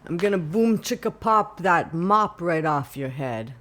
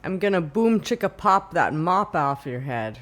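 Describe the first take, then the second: First: Loud Sicilian father voice; threatening Sicilian dad accent. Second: Put-on tough-guy Sicilian accent, loud. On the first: Retold or imitated. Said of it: "Like someone's Sicilian father". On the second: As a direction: Sicilian mobster accent, punchy. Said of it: "a Sicilian accent".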